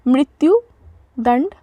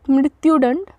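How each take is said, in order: First: मृत्युदंड said slowly, syllable by syllable; slow careful repetition. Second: Said in the usual way. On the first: Shown as a demonstration. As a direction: stretch out मृत्युदंड for learners. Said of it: "मृत्युदंड repeated slowly". (मृत्युदंड को धीरे-धीरे, साफ़ बोलें) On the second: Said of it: "मृत्युदंड (teacher models the word)".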